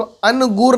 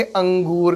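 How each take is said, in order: First: अनगूर with a full separate n, an-goor; अनगूर said with the n fully sounded; wrong reading. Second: अंगूर with only a nasalised vowel, no full n; nasal noon ghunna. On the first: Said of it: "लेकिन इसको अनगूर नहीं पढ़ेंगे". (अनगूर, न पूरा बोलकर) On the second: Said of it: "इसको आप पढ़ेंगे अंगूर". (अंगूर, नून गुन्ना के साथ) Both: Shown as a demonstration.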